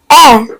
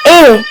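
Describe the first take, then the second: First: A said as an open "eh", lower in pitch; soft, open è sound. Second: A said as a clear, closed "ay"; sharp "ay" vowel for A; sharp, clear é sound. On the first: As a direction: say a like the vowel in bed. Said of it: "softens and opens the sound". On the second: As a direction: say A like the é ending café. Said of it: "makes the E sound sharp and clear". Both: Shown as a demonstration.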